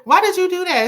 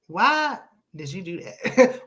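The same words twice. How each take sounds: First: Much higher and louder, laughing through it; laughing disbelief. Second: Drawn-out, disappointed question; slow disbelief. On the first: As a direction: burst out laughing as you repeat it. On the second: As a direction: ask it slowly, shaking your head. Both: Real, not acted.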